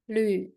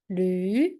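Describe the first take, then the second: First: The pitch dips low, then rises. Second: The pitch rises from mid to high. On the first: "And the third tone?" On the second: "And how to say the second tone?"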